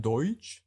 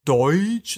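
First: Said in the usual way. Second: "Deutsch" punched higher and louder, rising; air-quoted Deutsch. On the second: Shown as a demonstration. Explaining dialect versus accent, "Deutsch" stressed with a rise. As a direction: hit "Deutsch" hard as if in quote marks. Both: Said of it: "in Anführungszeichen".

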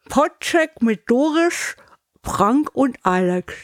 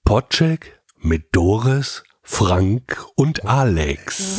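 First: Slow, over-articulated round a cork; cork in teeth. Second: Very slow, carefully articulated; slow clear diction. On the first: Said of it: "Korken in den Mund". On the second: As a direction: spell out every consonant slowly. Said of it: "wird die Aussprache wirklich besser". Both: Shown as a demonstration.

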